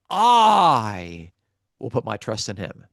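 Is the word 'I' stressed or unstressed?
stressed. The word I is said with strong stress. The speaker calls it right. "The stress is on the subject speaking about himself"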